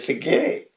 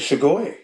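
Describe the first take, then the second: First: The word ends with a long 'e' sound. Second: The word ends with an 'oi' sound. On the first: This is the form young people use. "the youngsters say sige" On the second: This is the form older people use. "The elders say sugoi"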